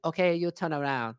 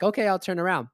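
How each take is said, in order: First: Lightly put-on Chinese accent; imitating Chinese-accented old lady. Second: Said in the usual way. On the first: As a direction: order it in a mock Chinese accent, r dropped. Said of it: "she's like". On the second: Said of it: "I'm like".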